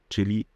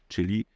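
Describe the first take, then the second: Both takes have the same delivery.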